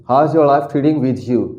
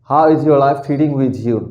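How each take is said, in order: Both takes have the same delivery.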